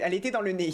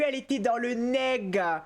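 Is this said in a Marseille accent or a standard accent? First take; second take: standard; Marseille. First: It is said in a standard accent. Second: It is said in a Marseille accent.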